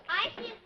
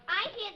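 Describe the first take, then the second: The two takes are said the same way.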